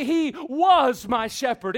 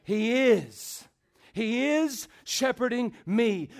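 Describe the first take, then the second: First: "was" drawn out and loud; stress on WAS. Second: "is" held, with a pause after it; stress on IS. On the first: Preacher saying what David didn't say, stress on WAS. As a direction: punch "was" as the wrong tense. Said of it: "David did not say". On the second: Preacher answering what David said, stress on IS. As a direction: slowly set "is" apart as the answer. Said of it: "David said what?". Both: Shown as a demonstration.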